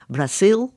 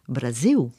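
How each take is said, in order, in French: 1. Le mot se termine par un L sombre, vélaire. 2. Le mot se termine par un son arrondi, de type voyelle. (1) "avec un L vélaire" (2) "avec un O"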